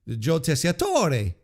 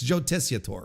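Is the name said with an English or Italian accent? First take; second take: Italian; English. First: The name is said with an Italian accent. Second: The name is said with an English accent. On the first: "do you have to do the little Italian inflection on it?" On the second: "No, probably not, right?"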